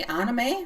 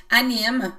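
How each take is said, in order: First: Anime said the English way, AN-uh-may, ending in -may. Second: Anime said the French way, ah-nee-MEEM with a nasal first vowel. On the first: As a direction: say anime like an English speaker, stress on the front. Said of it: "In English, maybe you say anime". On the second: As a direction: say Anime like a French speaker, stress at the end. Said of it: "we say in French". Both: Shown as a demonstration.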